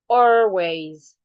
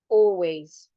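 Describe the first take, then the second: First: The vowel is said the American way. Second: The vowel is said the British way. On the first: "Americans will say" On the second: "the British articulate it as oh"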